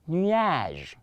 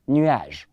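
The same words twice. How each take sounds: First: The word is said more slowly. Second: The word is said quickly. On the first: "Let me take it cool a little bit" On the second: "Somebody is saying I'm too fast"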